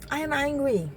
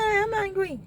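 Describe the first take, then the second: First: "I am angry" settled, leaning on "angry"; calmer repeat. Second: First take pitched far up, stress on I, falling; "I am angry" with a sharp high "I" dropping down; emphatic retold reply. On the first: Retold or imitated. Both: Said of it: "I said".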